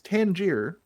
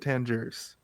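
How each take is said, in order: First: The name ends without an s sound. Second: The name ends with an s sound. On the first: The speaker calls it right. "it's Tangier" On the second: The speaker calls it wrong. "Why do they always pronounce it Tangiers?"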